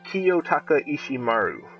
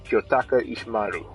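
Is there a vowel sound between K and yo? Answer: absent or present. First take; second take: present; absent. First: An i vowel is heard between K and yo. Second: No vowel is heard between K and yo. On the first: "So he pronounces it" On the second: "or would you pronounce it like"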